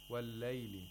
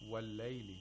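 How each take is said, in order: First: The l sound is passed over quickly. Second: The l sound is passed over quickly.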